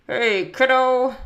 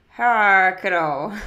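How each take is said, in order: First: Put-on loud, slow call to the kid; lightly voiced dad, drawn out and loud; dad's greeting. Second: "Ha, kiddo" with a loose, open "Ha" for "Hey"; loud "Ha, kiddo", as if lips hold nails; nails in mouth. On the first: Dad greets his kid from the loft, loud greeting. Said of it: "with the nails in his mouth". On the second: Dad greets his kid with nails in his mouth, muffled words. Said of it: "with the nails in his mouth, it sounded more like". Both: A narrator's reading.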